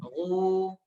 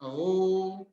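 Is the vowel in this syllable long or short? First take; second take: long; long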